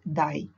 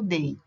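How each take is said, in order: First: The vowel sounds like the one in 'die'. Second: The vowel sounds like the one in 'day'.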